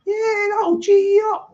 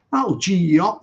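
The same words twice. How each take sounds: First: Much higher and louder, jumping up; excited pitch leap. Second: Said in the usual way. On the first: Shown as a demonstration. Streamer pumping up his viewers, high excited burst. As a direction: fire them up with a sudden high burst. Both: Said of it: "I've just geed you up".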